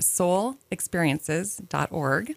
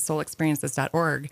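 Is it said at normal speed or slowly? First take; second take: slowly; normal speed. First: It is said slowly and deliberately. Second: It is said at normal conversational speed.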